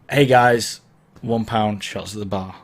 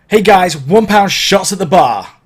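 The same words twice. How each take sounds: First: It is spoken casually, like normal conversation. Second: It is projected deeply from the chest with emphasis.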